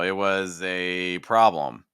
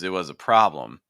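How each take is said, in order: First: The word 'a' has a full, stressed vowel. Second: The word 'a' is reduced to a schwa. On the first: The phrase carries extra weight and sounds slower. "it's gonna sound a lot more stressed" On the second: The phrase sounds relaxed and smooth. "that's a much more relaxed sound"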